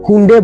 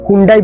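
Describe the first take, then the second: First: The name ends with an 'eh' vowel sound. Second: The name ends with an 'eye' vowel sound. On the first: This is how it is said in Korea. "কোরিয়াতে এটাকে হুন্ডে বলা হয়" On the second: This is how many people say it. "অনেকে এটাকে হুন্ডাই বলে"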